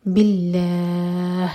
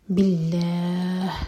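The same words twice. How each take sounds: First: باللہ said slowly with a light, thin lam. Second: باللہ said slowly, the final ه breathed out clearly. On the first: Teacher showing the light lam, slow recitation. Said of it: "لام ہے اس کو light پڑھا جائے گا". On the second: Teacher repeating with a clear ha at the end. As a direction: let the ha at the end of باللہ be heard. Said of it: "آخر میں ہا کا ساؤنڈ کلیئر آئے". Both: Shown as a demonstration.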